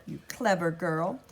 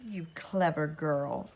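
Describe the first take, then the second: First: Chanted, slow, lulling repeated phrase. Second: Chanted, slow, eerie lulling voice; chanted, hypnotise her softly. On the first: Gracella lulls Elizabeth, slow and crooning. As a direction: croon it to hypnotise. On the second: Gracella lulls Elizabeth with a slow eerie chant. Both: A narrator's reading. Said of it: "lulling, quiet chant".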